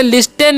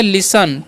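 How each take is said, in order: First: लिस्टेन with the T spoken, "lis-ten"; mispronounced sounded T. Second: लिसन with no T, like "lis-un"; silent T. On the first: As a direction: say लिस्टेन wrongly with a hard T. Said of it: "लिस्टेन नहीं पढ़ना है". (लिस्टेन में "ट" की गलत आवाज़) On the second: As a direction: say लिसन, dropping the T completely. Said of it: "टी जो silent होता है". (लिसन में "ट" silent) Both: Shown as a demonstration.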